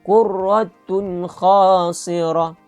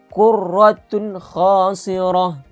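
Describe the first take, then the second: The two takes are said the same way.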